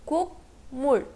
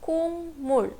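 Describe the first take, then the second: First: Said in the usual way. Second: "kung mul" with ng before the m; demonstrated "kung mul", no k at the join; k changed to ng. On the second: Shown as a demonstration. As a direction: say "kung mul", first syllable ending nasally. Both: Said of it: "it will be pronounced as".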